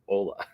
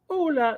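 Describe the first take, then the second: First: It is said in a plain, ordinary speaking voice. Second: It is said in an odd put-on character voice. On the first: "They say Ola" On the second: "such a weird but amazing Ola"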